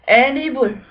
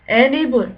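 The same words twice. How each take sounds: The two takes are said the same way.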